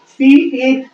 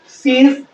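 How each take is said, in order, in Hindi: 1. इसे दो अलग-अलग पूरे शब्दों के रूप में बोला जाता है। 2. इसे एक छोटे, संकुचित शब्द के रूप में बोला जाता है।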